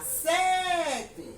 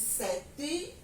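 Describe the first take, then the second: First: "sete" called out with a long, stretched first syllable SE; drawn-out, raised call on SE of "sete". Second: "sete" ending in a short rising "ee"; everyday "sete" with its last E turned to I; final E as I. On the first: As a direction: demo shout of sete, holding the stressed "SE". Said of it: "se eu for gritar sete". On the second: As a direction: say sete as "seti". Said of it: "som de I". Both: Shown as a demonstration.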